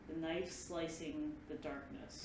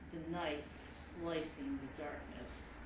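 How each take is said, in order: First: It is said at a slow pace. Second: It is said at a slower pace.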